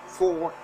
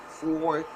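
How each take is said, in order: No difference in how they are said.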